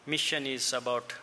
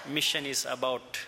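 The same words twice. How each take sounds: The two takes are said the same way.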